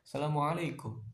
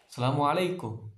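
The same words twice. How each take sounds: First: The greeting is said softly in a low tone. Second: The greeting is said firmly and assertively. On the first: The speaker calls it wrong. "Jangan nadanya jangan rendah ya" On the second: The speaker calls it right.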